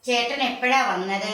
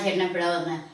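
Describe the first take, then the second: First: It is said in a showy, overacted way. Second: It is said plainly, like everyday talk. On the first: The speaker calls it wrong. "നേരെ മറിച്ച്" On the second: The speaker calls it right. "നോർമലായിട്ട് കൊണ്ടുപോയി അവർക്ക് കൊടുക്കണം. വർത്താനം പറയണം"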